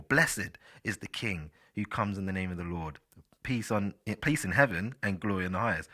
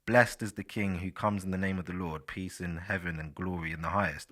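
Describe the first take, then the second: First: "Blessed" with the -ed as its own syllable; scripture reading with BLESS-ed for "Blessed"; two-syllable blessed. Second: "Blessed" in a single syllable ending -st; scripture reading, "Blessed" rhyming with rest; one-syllable blessed. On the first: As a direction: read the verse with "Blessed" as bless-id. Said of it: "I'll say "blessed". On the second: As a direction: read the verse with "Blessed" as blest. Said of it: "Or you could say". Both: Shown as a demonstration.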